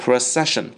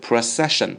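First: The stress is on the second syllable. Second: The stress is on the second syllable.

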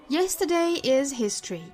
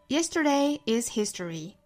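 First: It is read in a British accent. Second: It is read in an American accent.

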